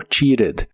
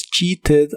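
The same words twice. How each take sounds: First: "cheated" with a tapped R sound, "chee-red"; casual "cheated", T turned into a quick tap; conversational T as R. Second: "cheated" with a clear T, "chee-ted"; official pronunciation. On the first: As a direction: flap the middle T of "cheated". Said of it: "la suelen pronunciar como R". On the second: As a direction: pronounce the T in "cheated" fully. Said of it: "La pronunciación oficial es". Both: Shown as a demonstration.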